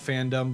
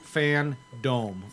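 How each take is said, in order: First: The second syllable sounds like 'dum'. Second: The second syllable sounds like 'dome'. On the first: "I call it fandom" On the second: "but it's fan"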